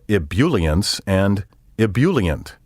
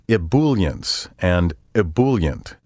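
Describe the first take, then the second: First: The second syllable sounds like bule. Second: The second syllable sounds like bool. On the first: "The bool and bule sounds are wrong" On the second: "The bool and bule sounds are wrong"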